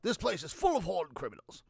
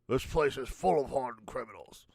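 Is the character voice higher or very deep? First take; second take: higher; very deep. First: The voice is in a higher, regular British register. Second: The voice is pushed very deep, less British. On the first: "Let's start with Sherlock" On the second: "we need to go deeper"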